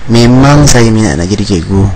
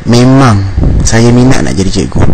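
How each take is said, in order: The two takes are said the same way.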